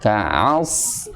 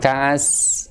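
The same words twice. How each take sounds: First: The s sound is thick and emphatic. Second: The s sound is thin and light. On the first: The speaker calls it right. "huruf shad di sini bukan huruf sin" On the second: The speaker calls it wrong. "bukan ka'as"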